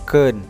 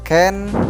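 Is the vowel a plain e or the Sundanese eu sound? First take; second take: eu; e. First: The vowel is the Sundanese eu sound. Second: The vowel is a plain e sound. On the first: The speaker calls it right. "tapi keun" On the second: The speaker calls it wrong. "bukan ken"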